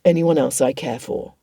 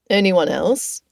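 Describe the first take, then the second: First: "anyone else I care for" weighted, in a low voice; emphasis on last words. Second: "Anyone else?" with a rise at the end; questioning echo. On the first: A narrator's reading. Darcy vowing to his cousin, stressing "anyone else I care for". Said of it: "The emphasis on the last words". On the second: Acted. Richard teasing his cousin, "Anyone else?" rising as a question. Cousin queries the emphasised words.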